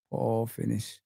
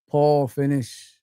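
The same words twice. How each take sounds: First: "Poor finish" said again much softer and lower, under the breath; soft, low "Poor finish" to himself; muttered repeat. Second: "Poor finish" drawn out slowly, each word weighed; slow, deliberate "Poor finish"; slow verdict. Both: Shown as a demonstration.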